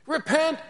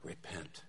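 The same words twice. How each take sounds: First: Very high, loud cry; imitated cry, cut short by the axe; prophet's last shout. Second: Very soft, low, ghostly repeat; hushed echo of the prophet's cry; whispered voice. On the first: Replays cry before the beheading. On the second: Retold or imitated. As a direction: whisper it as a voice from beyond. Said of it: "you hear a whispered voice that says".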